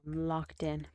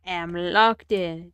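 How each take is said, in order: First: Said in the usual way. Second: "I am locked in" stretched out slow and louder, weight on "locked"; slow emphatic declaration. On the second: Shown as a demonstration. Streamer psyching himself up mid-build, slow and louder. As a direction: lean hard into "locked", drawn out.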